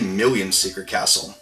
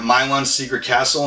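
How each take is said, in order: First: The first word sounds like 'Million'. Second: The first word sounds like 'Milon'. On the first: The speaker calls it wrong. "I actually used to say Million's Secret Castle, which is really weird" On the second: The speaker calls it right. "it's obviously Milon's"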